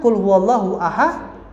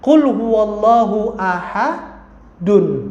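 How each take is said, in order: First: The last word stops on a bare 'd'. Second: The last word ends with a full 'dun'. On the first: The reader stops at the end of the verse. "kalau kita wakafkan" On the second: This is how it is written. "Kan tulisannya begitu"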